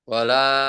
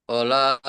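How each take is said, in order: No difference in how they are said.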